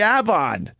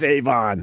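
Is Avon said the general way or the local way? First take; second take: local; general. First: It uses the local regional pronunciation. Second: It uses the general standard pronunciation. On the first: This is how people in that area say it. "Locally, they say Avon" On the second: This is how most people say it. "I know it's Avon"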